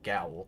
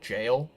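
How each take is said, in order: First: The word is sounded out following its spelling. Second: The word is pronounced exactly like 'jail'. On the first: "So I'm going to call it gaol" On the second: "the proper pronunciation for that word is jail"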